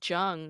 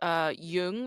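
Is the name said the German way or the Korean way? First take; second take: Korean; German. First: The name is pronounced the Korean way. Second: The name is pronounced the German way. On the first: It is the Korean surname. "which is a Korean last name" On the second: It is the Swiss German surname. "like CG Jung, like the psychoanalyst. He's Swiss German"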